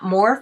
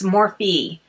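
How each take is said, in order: First: The name ends on a consonant sound. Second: The name ends on a vowel sound. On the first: The speaker calls it wrong. "a lot of people mispronounce this. It's not Morph" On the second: The speaker calls it right. "That's how they say this"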